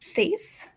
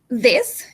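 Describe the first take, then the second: First: The th sound is voiceless without vibration. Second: The th sound is voiced and vibrates. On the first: The speaker calls it wrong. "and not this, like the previous one" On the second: The speaker calls it right. "this one is voiced"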